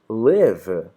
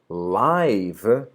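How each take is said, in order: First: The vowel is short, like 'liv'. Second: The vowel is long, like 'laiv'. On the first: It is the verb meaning to be alive or reside. "Live é o verbo viver" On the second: It means happening in real time. "Live significa ao vivo"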